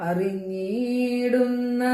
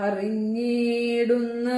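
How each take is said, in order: No difference in how they are said.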